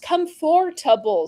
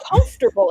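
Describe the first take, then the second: First: The T and R sounds are in normal order. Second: The T and R sounds are swapped. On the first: The speaker calls it right. "It's comfortable" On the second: The speaker calls it wrong. "So you're flipping the T and the R"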